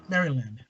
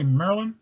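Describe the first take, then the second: First: "Maryland" with every syllable sounded; "Maryland" as spelt, Mary-land in three parts; full careful pronunciation. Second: "Maryland" squeezed into two syllables, like "Merlin"; "Maryland" with the middle vowel swallowed; local Maryland pronunciation. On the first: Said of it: "we don't pronounce it". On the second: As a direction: say "Maryland" as locals do, "Murr-lun". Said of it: "we don't say in Maryland". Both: Shown as a demonstration.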